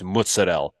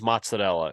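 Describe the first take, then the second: First: The word is clipped, dropping its final vowel. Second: The word is said in full with its final vowel. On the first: The speaker calls it right. "It's like what's it's mozz" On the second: The speaker calls it wrong. "nobody says mozzarella"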